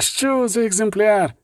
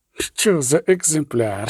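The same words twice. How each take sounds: First: Higher, slow, rapturous repeat; rapture. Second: Rapture. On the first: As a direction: swoon over the specimen. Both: Acted. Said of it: "у безмежному захваті".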